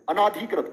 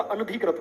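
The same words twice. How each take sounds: First: "अनाधिकृत" with a long आ after न; wrong long आ. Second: "अनधिकृत" with no long आ after न; short vowel after न. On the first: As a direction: stretch the ना in "अनाधिकृत". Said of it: "आ लगा देते हैं". ("अनाधिकृत" में न पर लंबा आ) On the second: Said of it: "अनादि नहीं होता". ("अनधिकृत" में न छोटा, बिना आ की मात्रा) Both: Shown as a demonstration.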